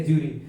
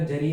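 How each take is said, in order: First: ज्यूरी with a long 'oo' in the first syllable, 'joo-ree'; ज्यूरी with a full 'oo', not 'juh'; pronunciation variant. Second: जरी with a short 'uh' in the first syllable, 'juh-ree'; alternative pronunciation. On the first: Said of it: "ज्यूरी बोलते हैं यार". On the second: Gives two pronunciations of one word. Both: Shown as a demonstration.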